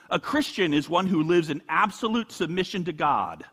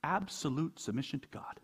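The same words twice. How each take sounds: First: "absolute" leaned on with a long falling line; full voice, "absolute" given the weight; stress on absolute. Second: Much softer, "Absolute" still carrying the weight; hushed repeat, "Absolute" stressed and falling; quiet echo. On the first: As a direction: read the quote out, weighting "absolute". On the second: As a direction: drop the voice and let it sink in. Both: Shown as a demonstration. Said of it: "You hear that?".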